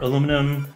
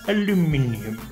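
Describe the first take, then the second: First: The word is said the American way. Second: The word is said the British way. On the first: The speaker calls it wrong. "I've been spending too much time with Americans" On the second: The speaker calls it right. "Say it correctly"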